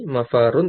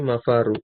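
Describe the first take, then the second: First: The word ends with an added n sound. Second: The word ends without an added n sound. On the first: The speaker calls it wrong. "mafarun tanwin" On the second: The speaker calls it right. "Jadi dibaca mafaru itu aja"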